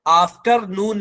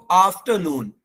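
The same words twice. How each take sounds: First: "आफ्टरनून" with a clear R, "after-noon"; wrong sounded R. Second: "आफ्टरनून" as "aaf-tuh-noon", R dropped; silent R. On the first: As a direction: pronounce the R in "आफ्टरनून". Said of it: "आफ्टरनून नहीं". ("आफ्टरनून" में आर की आवाज़ के साथ) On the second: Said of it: "आर silent रहेगा". ("आफ्टरनून" में आर silent) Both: Shown as a demonstration.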